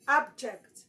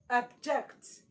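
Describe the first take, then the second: First: The stress is on the first syllable. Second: The stress is on the second syllable. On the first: It is used as a noun. "the stress must fall on the first syllable, which is ab" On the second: It is used as a verb. "it is now a verb"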